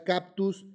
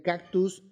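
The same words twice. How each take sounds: First: "cactus" said as "captus" with a P; mispronounced "cactus"; wrong pronunciation. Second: Said in the usual way. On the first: Shown as a demonstration. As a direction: swap the K in "cactus" for a P. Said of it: "Pronunciar cactus en vez de cactus". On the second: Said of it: "en vez de cactus".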